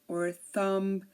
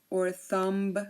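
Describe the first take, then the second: Both takes have the same delivery.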